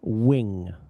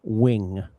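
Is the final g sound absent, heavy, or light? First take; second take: light; light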